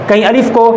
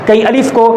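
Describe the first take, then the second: Both takes have the same delivery.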